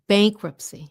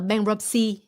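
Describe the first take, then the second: First: The stress is on the first syllable. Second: The stress is not on the first syllable. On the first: The speaker calls it right. "First syllable" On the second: The speaker calls it wrong. "Không phải là bankruptcy"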